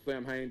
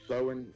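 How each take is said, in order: First: The word sounds like 'Sam-hain' with an m. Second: The word sounds like 'Sow-en' with no m. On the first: The speaker calls it wrong. "I've always called it Samhain" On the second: The speaker calls it right. "the supposed correct pronunciation of what's spelled Samhain is Sowen"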